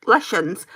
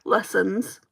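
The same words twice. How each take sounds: First: "lessons" said with a sh sound, like "leshons"; slurred "lessons". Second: "lessons" with a clean s sound in the middle; careful "lessons". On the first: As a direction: say "lessons" as "LESH-uns". Slips on word, then corrects. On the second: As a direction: say "lessons" as "LESS-uns", rising at the end. Repeats word with corrected sound. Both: Shown as a demonstration.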